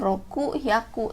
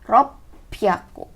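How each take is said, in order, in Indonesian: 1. Diucapkan sebagai dua kata terpisah, roku dan hyaku. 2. Diucapkan sebagai satu kata gabungan, ropyaku. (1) "bukan roku hyaku" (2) "tapi ropyaku"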